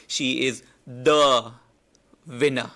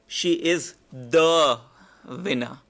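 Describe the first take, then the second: First: "She is the" drawn out slow and loud, pause, then "winner"; slow emphatic build. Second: "She is the" drawn out slow and loud, then "winner"; slow build to winner. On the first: Teacher repeats the slow, weighty build to the class. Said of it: "this one is really important". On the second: Teacher demos a drawn-out lead into "winner". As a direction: stretch "She is the" before landing on "winner". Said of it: "Another way of saying it is". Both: Shown as a demonstration.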